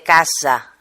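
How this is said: The S is voiced, like a buzz. This is how Spanish speakers from Catalonia say it. "Un catalán que hable en castellano dirá muy frecuentemente casa"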